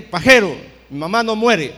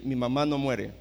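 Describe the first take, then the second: First: Loud, defiant yelled retort; furious shout. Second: Calm firm statement. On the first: Son yells at the prophet again, defiant shout. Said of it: "le volví a gritar". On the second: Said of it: "me le quedé viendo y le dije". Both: Retold or imitated.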